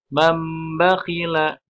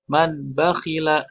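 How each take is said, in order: First: A slightly held m sound comes before the b. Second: A clear n sound comes before the b. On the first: The speaker calls it right. "Tapi mambakhila agak ditahan sedikit ya" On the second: The speaker calls it wrong. "Maka dibacanya bukan man bakhila. Nah, bukan seperti itu"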